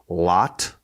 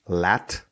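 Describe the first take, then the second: First: The vowel sounds like the one in hot. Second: The vowel sounds like the one in cat. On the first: The speaker calls it wrong. "is wrong" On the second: The speaker calls it right. "lat is also acceptable"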